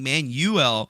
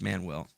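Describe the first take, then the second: First: The name sounds like the word manual. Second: The name does not sound like manual. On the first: The speaker calls it wrong. "you're saying Manuel, but that's the, the wrong way of saying it" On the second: The speaker calls it right. "It's Manuel"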